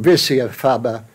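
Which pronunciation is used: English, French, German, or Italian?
English. It is pronounced with an English accent. "in English"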